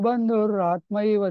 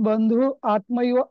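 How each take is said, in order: First: The words run together, linked by an r sound. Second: A short pause separates the words, with no linking r. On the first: The verse is read continuously, so the sounds join. "पण तुम्ही pause नाही घेणार" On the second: The verse is read with a break after the eighth syllable. "जर तो pause असेल ना, तर मग बंधू आत्मैव असं होणार"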